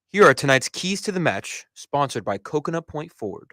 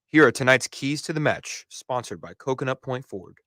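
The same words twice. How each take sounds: First: The voice is high and throaty throughout. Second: The voice starts deep, then rises as it speeds. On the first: "you're still kind of talking from your Adam's apple up" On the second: "You started with your diaphragm"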